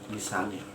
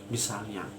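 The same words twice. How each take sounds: The two takes are said the same way.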